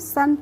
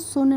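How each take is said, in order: First: The vowel is an open 'uh' sound. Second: The vowel is a rounded 'oo' sound. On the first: The speaker calls it right. "इसको हम सन पढ़ेंगे" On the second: The speaker calls it wrong. "इसको सुन नहीं पढ़ेंगे"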